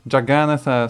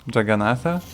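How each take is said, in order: First: The second A is said long. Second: The second A is said short. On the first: The speaker calls it right. "sounds much, much more interesting" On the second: The speaker calls it wrong. "with the second A being a short one because it's in front of double N"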